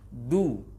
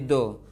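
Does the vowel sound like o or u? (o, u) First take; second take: u; o. First: The vowel is a fully rounded u sound. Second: The vowel is a less rounded o sound. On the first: The speaker calls it right. "bibir udah monyong duluan" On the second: The speaker calls it wrong. "kurang kurang monyong, kurang pas dhammahnya jadi do"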